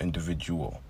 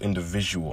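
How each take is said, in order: First: The 'visual' part of the word is unemphasized. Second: The 'visual' part of the word is emphasized. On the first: It is just the ordinary word. The speaker calls it wrong. "not Individual" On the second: The name highlights vision inside individuality. The speaker calls it right. "because it's called Individual"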